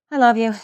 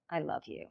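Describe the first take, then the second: First: "I love you" with a punch on "love"; emphatic version. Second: "I love you" barely breathed out; near whisper. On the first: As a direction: lean into the word "love". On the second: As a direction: drop "I love you" almost to nothing. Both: Shown as a demonstration. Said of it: "three different ways".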